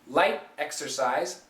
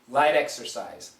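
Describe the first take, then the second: First: The T is stopped before 'exercise'. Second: A flat T links into 'exercise'. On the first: "We could stop the T" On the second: "have a flat T and connect it"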